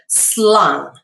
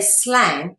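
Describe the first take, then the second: First: The vowel sounds like the 'u' in 'cup'. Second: The vowel sounds like the 'a' in 'cat'. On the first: The speaker calls it right. "you say slung with a U sound" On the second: The speaker calls it wrong. "you don't say slang in Dutch"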